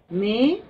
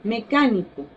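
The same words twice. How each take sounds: First: Me-ca-ni-co with a long pause after each syllable. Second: Said in the usual way. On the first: Shown as a demonstration. Teacher splits the word just said. (Me-ca-ni-co separado sílaba por sílaba)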